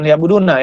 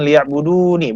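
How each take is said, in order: First: The word ends with a short -na syllable. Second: The word ends with a short -ni syllable. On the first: The speaker calls it wrong. "bukan liya'buduna ya" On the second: The speaker calls it right. "matinya itu dengan liya'budu nih"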